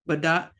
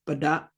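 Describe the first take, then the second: First: The word ends with an abrupt glottal cut-off. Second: The word ends with an abrupt glottal cut-off.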